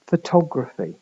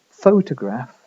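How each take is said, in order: First: "photography" stressed on the second syllable, fuh-TOG-ruh-fee. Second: "photograph" stressed on the first syllable, FOH-tuh-graf; stress on PHO. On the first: Lecturer comparing a word pair, second-syllable stress on "photography". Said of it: "main stress is on the second vowel". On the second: Lecturer comparing a word pair, first-syllable stress on "photograph". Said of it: "main stress is on the first vowel". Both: Shown as a demonstration.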